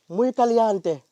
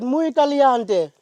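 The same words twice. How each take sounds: First: It is said at a normal volume. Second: It is said more loudly.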